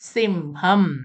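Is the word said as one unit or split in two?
one unit. The two syllables are joined into one word. The speaker calls it right. "അതൊക്കെ ഒരുമിച്ച് തന്നെ വായിക്കണം"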